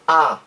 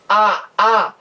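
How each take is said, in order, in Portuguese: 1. A vogal é pronunciada só uma vez. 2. A vogal é pronunciada duas vezes seguidas. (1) "você diz apenas a" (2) "em vez de dizer a a"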